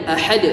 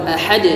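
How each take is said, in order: Both takes have the same delivery.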